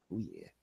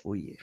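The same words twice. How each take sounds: First: Much lower, soft mock deep voice. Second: Said in the usual way. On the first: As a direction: drop the voice way down. Repeats phrase, second much deeper.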